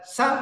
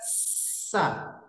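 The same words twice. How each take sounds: First: The s is short with no drawn-out hiss. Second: The s starts with a long, flowing hiss. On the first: The speaker calls it wrong. "tidak sekedar sa" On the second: The speaker calls it right. "ada desisnya"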